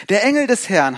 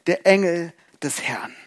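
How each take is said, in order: First: Said in the usual way. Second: Each word weighed slowly; slow solemn emphasis. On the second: Acted. Repeats the phrase, first slowly.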